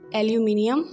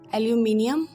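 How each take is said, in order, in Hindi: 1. इसे ब्रिटिश लहजे में बोला गया है। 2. इसे ब्रिटिश लहजे में बोला गया है।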